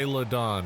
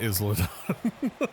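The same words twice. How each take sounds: First: Isla is pronounced the English way. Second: Isla is pronounced the Spanish way. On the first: The speaker calls it right. "I realized that it's uh it's" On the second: The speaker calls it wrong.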